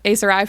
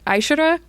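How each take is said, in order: First: The name is said with an 's' sound. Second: The name is said with a 'sh' sound. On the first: This is the pronunciation used for the book. "Aeserai for the purposes of the book" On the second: This is the real pronunciation of the word. "The real pronunciation is more like Aishura"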